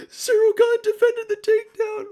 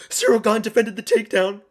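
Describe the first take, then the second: First: Squealing very high and loud on Gane; disbelieving shriek. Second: Excited call. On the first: Streamer shrieking the news that the takedown was stopped. Repeats it, far higher. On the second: Takedown defended live. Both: Real, not acted.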